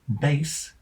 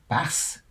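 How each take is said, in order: First: The word rhymes with base. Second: The word rhymes with gas. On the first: It names a musical instrument. "rhyming with bass" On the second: It names a kind of fish. "rhyming with gas"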